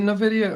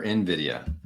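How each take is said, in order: First: "nvidia" with a schwa after the N; pronounced nuh-VID-ia. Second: "nvidia" opening with an IN sound; pronounced in-VID-ia. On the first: Host weighing two ways to say the company name, "nvidia" as nuh-VID-ia. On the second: Host weighing two ways to say the company name, "nvidia" as in-VID-ia. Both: Shown as a demonstration. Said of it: "Is it nvidia or nvidia?".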